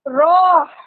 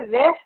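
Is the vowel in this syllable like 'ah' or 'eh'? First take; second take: ah; eh. First: The vowel sounds like 'ah'. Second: The vowel sounds like 'eh'. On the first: The speaker calls it right. "रॉ में ही हा साकिन का साउंड डालना है" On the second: The speaker calls it wrong. "रॉ की जगह रेह पढ़ जाते हैं"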